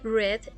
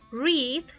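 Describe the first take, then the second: First: It is pronounced as the past-tense form. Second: It is pronounced as the present-tense form. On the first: The action happened before. "read está en tiempo pasado" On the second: The action happens now. "Read está en tiempo presente"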